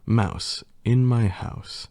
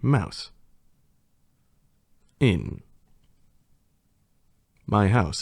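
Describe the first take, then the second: First: It is said smoothly without pauses. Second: It is said with pauses between words.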